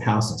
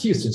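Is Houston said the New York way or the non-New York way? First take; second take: New York; non-New York. First: Houston is said the local New York way. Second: Houston is said the usual non-New York way. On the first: The speaker lives in New York. "but I say Houston Street because I live in New York" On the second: The speaker is not from New York. "which you probably pronounce as Houston Street"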